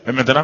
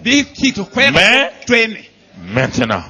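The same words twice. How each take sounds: First: The two words run together without a pause. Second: The two words are separated by a pause. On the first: The words are read past quickly. The speaker calls it wrong. "On lit pas la Bible, mais maintenant" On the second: Each word carries its own weight. The speaker calls it right. "Il faut faire l'intonation"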